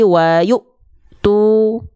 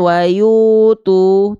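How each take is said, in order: First: The 'yu' sound is held back before continuing. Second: The 'yu' sound flows on without being held. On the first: The speaker calls it right. "yu-nya tertahan" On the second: The speaker calls it wrong. "bukan wayu tu"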